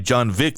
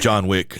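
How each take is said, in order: First: It is said with a Russian accent. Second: It is said with a plain accent.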